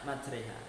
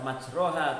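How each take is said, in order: First: The vowel after r sounds like e. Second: The vowel after r sounds like a. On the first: The speaker calls it right. "tapi dibaca maj majreha" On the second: The speaker calls it wrong. "tidak dibaca majroha"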